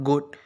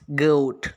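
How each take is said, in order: First: The vowel stays steady without gliding. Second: The vowel glides as a diphthong. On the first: The speaker calls it wrong. "it's not goat" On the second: The speaker calls it right. "It's goat. Okay, it's a diphthong"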